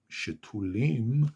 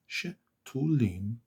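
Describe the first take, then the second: First: Said in the usual way. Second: שתולים broken up, she, then tulim; split into syllables. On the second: Shown as a demonstration. Teacher counts three syllables, שתולים split after she. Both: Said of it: "three syllables".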